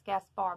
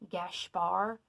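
First: The name is said in an anglicized way. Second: The name is said in a Hungarian-style way. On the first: This is the pronunciation commonly found online. "anywhere you look online, it's like, oh yeah, it's Gaspar" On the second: This reflects the name's Hungarian origin. "I feel like it's like Gaspar because it's more Hungarian-based"

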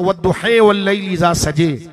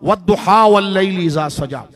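First: It is recited in another imam's reading style. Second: It is recited in the common reading style. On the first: "दूसरे इमाम की तरफ जाए तो" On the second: "एक लहजा देखें"

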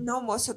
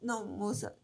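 First: The voice is firm and not softened. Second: The voice is soft and melancholic. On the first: The speaker calls it wrong. "Não foi assim, de verdade, nesse tom de voz" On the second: The speaker calls it right. "suave, sabe? Aquela voz melancolosa"

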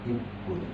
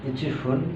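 First: It is contracted into one word with a doubled p. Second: It is said as two separate full words. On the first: "একসাথে করে ইপ্পুন বলা হয়"

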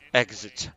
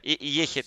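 First: The middle consonants sound like ks. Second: The middle consonant sounds like a throaty h. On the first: "Всегда Exit был" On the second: "я никогда Эхит не говорил"

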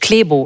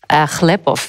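First: The name is said in a typical Berlin way. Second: The name is said in its original form. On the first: This is how people in Berlin say it. "typisch berlinerisch" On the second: This is how the name originally sounded. "wäre es ursprünglich"

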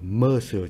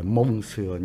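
First: It is said with French sounds. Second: It is said like two Vietnamese syllables. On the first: The speaker calls it right. "Monsieur chứ không phải mông sườn nha" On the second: The speaker calls it wrong. "chứ không phải mông sườn nha"

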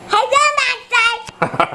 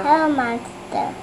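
First: It is said loudly. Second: It is said softly.

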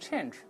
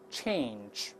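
First: The vowel is a plain 'an' sound. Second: The vowel is a diphthong 'ei' before the nasal. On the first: The speaker calls it wrong. "好多人容易把它读成change，注意不对啊" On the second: The speaker calls it right. "先发a 再加鼻音an"

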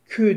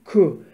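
First: The syllable has a thin, fronted consonant sound. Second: The syllable has a thick, backed consonant sound. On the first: The speaker calls it wrong. "Kü değil" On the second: The speaker calls it right. "Kef harfi kalın çıkacak"

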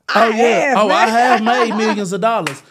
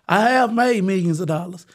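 First: It is said proudly, with full chest. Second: It is said lightly, in a casual tone. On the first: The achievement is claimed with pride. The speaker calls it right. "I say that proudly" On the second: The achievement is mentioned in passing. The speaker calls it wrong. "You can't just sit back there and say that lightly"

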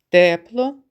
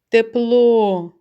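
First: The stress is on the first syllable. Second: The stress is on the second syllable. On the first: "спочатку з голосом на першому складі" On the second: "а потім на другому"

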